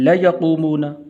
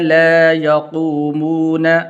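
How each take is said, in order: First: The vowel in la is kept short. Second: The vowel in la is drawn out longer. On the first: The speaker calls it wrong. "बाद लोग इसको पढ़ते हैं ला यक़ूमून, ला यक़ूमून नहीं पढ़ना भाई" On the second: The speaker calls it right. "इस ला को लंबा करना है थोड़ा सा"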